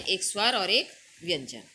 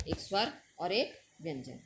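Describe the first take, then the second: First: एक स्वर और एक व्यंजन said louder, each एक hit hard; teacher stressing एक स्वर and एक व्यंजन; emphatic listing. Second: Said in the usual way. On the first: Shown as a demonstration. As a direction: stamp both एक for the pupils. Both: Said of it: "दो भागों में बांटा है".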